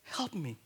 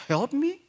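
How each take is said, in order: First: Much softer help me; a gentle, quiet begging; soft plea. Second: Higher, rising help me; a questioning plea, pitched up; puzzled question. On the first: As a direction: plead under the breath. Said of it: "And she was saying". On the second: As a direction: ask it in disbelief. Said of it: "And she said". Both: Retold or imitated.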